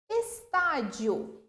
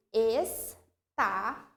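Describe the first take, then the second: First: Said in the usual way. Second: "Estadio" drawn out as es, tá, di, o; syllable by syllable. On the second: Shown as a demonstration. Teacher separating a word for the class, "Estadio" syllable by syllable. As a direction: say "Estadio" very slowly, pausing after every syllable. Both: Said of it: "Como que eu separo em sílaba?".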